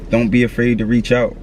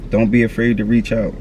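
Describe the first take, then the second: No difference in how they are said.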